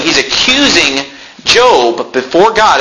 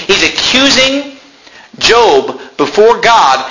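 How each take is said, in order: First: Said in the usual way. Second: He's accusing pitched much higher and drawn out, before slowed right down; stressed repeat. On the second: Shown as a demonstration. Pastor repeats the point to drive it home, emphatic and slow. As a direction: lean hard on accusing, then slow before God.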